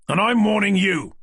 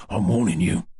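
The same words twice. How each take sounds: First: High, loud furious counter-threat; angry shout. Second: Lower-pitched menacing mugger warning; low, cold street-thug warning; menacing threat. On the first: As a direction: hurl the threat back loudly. Detective throws threat back. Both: Acted.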